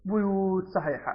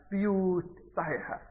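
First: بيوت as "buyut", opening on bu; damma on the ba. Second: بيوت as "biyut", opening on bi; kasra on the ba. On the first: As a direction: say بيوت with a short u after b. (بيوت بضم الباء) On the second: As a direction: say بيوت with a short i after b. (بيوت بكسر الباء) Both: Retold or imitated. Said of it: "هذه لغة العرب وهذه لغة العرب".

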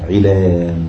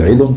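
First: "علان" as i-laan, the long aa held before n; added silent letter. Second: "علم" as i-lun, short and ending in n; short foot ending. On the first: Teacher showing students the lengthened foot, "علان" drawn out to i-laan. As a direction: stretch the last syllable of "علان" into laan. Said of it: "ونزيد عليها إيه؟". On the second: Teacher giving the unaltered foot ending, "علم" as short i-lun. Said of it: "بدل علم تصبح علان". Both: Shown as a demonstration.

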